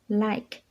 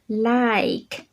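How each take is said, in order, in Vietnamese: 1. Từ này được nói ngắn và nhanh. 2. Từ này được nói chậm và kéo dài.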